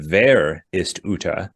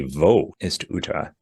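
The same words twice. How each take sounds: First: "Wer ist Uta?" said slowly in German, Wer with a v sound; slow German: "Wer" like vair; German pronunciation. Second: "Wo ist Uta?" said slowly in German, Wo like voh; slow careful German: "Wo" as voh; German pronunciation. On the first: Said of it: "which is a proper German sentence". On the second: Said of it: "in German, it'd be". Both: Shown as a demonstration.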